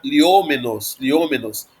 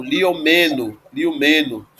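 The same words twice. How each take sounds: First: Liômenos with the stress on the O; stress on third-last syllable. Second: Liomeno with the accent moved onto me; stress on ME. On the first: Teacher showing a proparoxytone to students, Liômenos stressed on ô. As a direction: stress the ô in Liômenos, falling away after it. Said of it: "essa palavra vai ser proparoxítona". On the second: Teacher showing the genitive accent shift, liomeno stressed on me. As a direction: lean on the me in liomeno, then fall. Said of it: "O acento vai pro me". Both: Shown as a demonstration.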